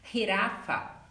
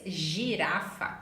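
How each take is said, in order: First: The first sound follows Spanish pronunciation. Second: The first sound follows Portuguese pronunciation.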